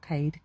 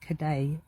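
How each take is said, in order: First: The name is said as one syllable. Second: The name is said as two syllables. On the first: The speaker calls it wrong. "Not Cade" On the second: The speaker calls it right.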